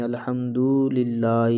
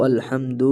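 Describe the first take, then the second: First: الحمدللہ slowly, the dal held far too long; overlong dal, wrong. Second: الحمد with the dal held only briefly; short dal, correct. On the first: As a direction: drag out the dal in الحمدللہ as the mistake. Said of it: "یہ بھی غلط ہے". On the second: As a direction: clip the dal in الحمد just right. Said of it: "اتنا کھینچنا ہے دال کو". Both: Shown as a demonstration.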